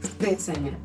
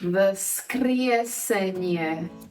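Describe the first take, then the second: First: It is said fast. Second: It is said slowly.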